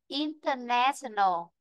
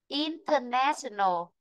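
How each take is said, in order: No difference in how they are said.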